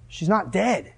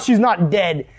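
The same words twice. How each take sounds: First: Quiet, matter-of-fact assurance; understated Jesus. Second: Incredulous echo. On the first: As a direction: state it softly, without pushing. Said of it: "Jesus' words to them are". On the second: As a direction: throw the words back in disbelief. Mourners throw his words back. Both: Acted.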